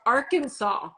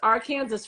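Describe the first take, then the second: First: The ending sounds like the word saw. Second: The ending sounds like the word Kansas. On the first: The speaker calls it right. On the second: The speaker calls it wrong.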